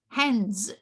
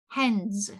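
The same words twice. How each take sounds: First: The word ends with an s sound. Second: The word ends with an s sound.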